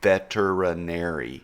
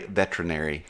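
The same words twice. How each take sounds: First: The 'er' syllable after 'vet' is clearly said. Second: The 'er' syllable after 'vet' is left out. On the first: The speaker calls it right. "It is V E T E R I N A R Y" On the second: The speaker calls it wrong. "a lot of people in the industry, like who are not veterinarians, say"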